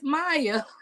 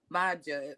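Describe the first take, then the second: First: The middle consonant is a Y sound. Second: The middle consonant is a hard J sound. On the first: The speaker calls it right. "it's Maya" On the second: The speaker calls it wrong. "like some people kept calling Maja"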